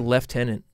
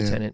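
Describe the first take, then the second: First: It is said with a British pronunciation. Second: It is said with an American pronunciation.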